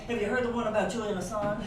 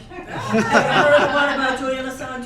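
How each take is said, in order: First: Said in the usual way. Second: Loud, laughing pitch of a joke setup; bright joke-teller opener. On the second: Shown as a demonstration. Speaker shows the crowd how to answer, loud joking opener. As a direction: sell it like a comedian's opener. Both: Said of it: "Please respond by saying".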